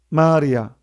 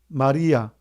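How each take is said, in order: First: The stress is on the first syllable. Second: The stress is on the second syllable. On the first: It means the seas. "모든 강물이 한 곳에 모이면 마리아" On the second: It means the Virgin Mary. "모든 눈총이 한 곳에 모으면 마리아"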